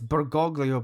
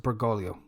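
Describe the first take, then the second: First: The name is pronounced carefully, in full. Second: The name is pronounced in a simpler way. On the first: "it's Bergoglio" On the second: "the easier way to pronounce it"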